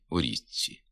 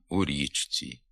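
First: The neighbouring consonants assimilate to each other. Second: The consonants are pronounced as written, unassimilated. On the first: The speaker calls it right. "треба говорити" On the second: The speaker calls it wrong. "звичка вимовляти слова відповідно до їх написання"

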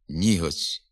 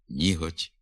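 First: The soft t has a hissing ts-like sound. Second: The soft t is plain with no hiss. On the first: The speaker calls it wrong. "вимовляються зі свистячим відзвуком" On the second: The speaker calls it right. "треба вимовляти"

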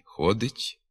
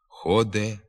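First: The word ends in a soft yt. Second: The word ends in an e vowel. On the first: This is the literary standard form. The speaker calls it right. "Треба говорити" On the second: This is a nonstandard form. The speaker calls it wrong. "без звука «ть» та з заміною «и» звуком «е»"

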